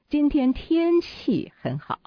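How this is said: The word 天气 is stressed. The focus is on the weather. "那重点又在天气了"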